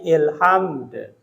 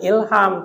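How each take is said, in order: First: The word ends on a d sound. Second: The word ends on an m sound. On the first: The final letter is kept. The speaker calls it right. "tapi ilhamd" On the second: The final letter is dropped and the meaning changes. The speaker calls it wrong. "Jangan ilham"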